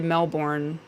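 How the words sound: It is said with an American pronunciation. "when Americans say Melbourne"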